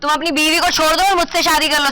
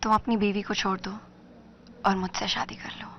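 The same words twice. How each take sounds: First: It is said in an angry tone. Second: It is said in a seductive tone.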